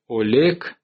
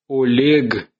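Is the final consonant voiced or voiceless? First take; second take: voiceless; voiced. First: The final consonant is a voiceless k sound. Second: The final consonant is a voiced g sound. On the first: This is the later form after the change. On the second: This is the older form before the change.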